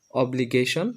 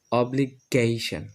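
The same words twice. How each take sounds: First: অব্লিগেশন run together, ending in rising "shon"; old pronunciation. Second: অব্লিগেশন slow, "obli-GAY-shan", falling; new pronunciation. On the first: Teacher recalls the old habit, অব্লিগেশন as rising "obligeshon". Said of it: "আগে আমরা উচ্চারণ করতাম". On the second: Teacher models for learners, অব্লিগেশন as slow "obli-gayshan". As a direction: say অব্লিগেশন split before "gay", ending "shan". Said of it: "এখন আমরা এটা উচ্চারণ করব". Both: Shown as a demonstration.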